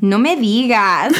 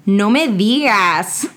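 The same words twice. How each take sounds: First: "No me digas" lifted into a questioning rise at the end; rising inflection. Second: Milk each word of "No me digas"; drawn-out disbelief. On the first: Host tries a new inflection, rising at the end. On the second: Host practises a slow, drawn-out no me digas. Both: Shown as a demonstration. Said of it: "put random inflections in there".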